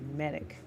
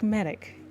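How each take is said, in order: First: The word is said at normal volume. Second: The word is yelled loudly. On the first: The speaker calls it wrong. "You wouldn't just say medic" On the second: The speaker calls it right. "a very strong, pronounced way"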